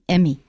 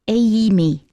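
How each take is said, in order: First: The first vowel is a short 'eh' sound. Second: The first vowel is a long 'ay' sound. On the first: The speaker calls it wrong. "people often pronounce them as eh incorrectly" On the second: The speaker calls it right. "Make the A really long and clear"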